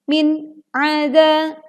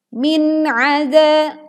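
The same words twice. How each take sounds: First: The two words are cut apart with a break. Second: The two words flow together without a break. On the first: The speaker calls it wrong. "hati-hati tidak dipenggal menjadi" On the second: The speaker calls it right. "min dibaca jelas tanpa memantulkan suara"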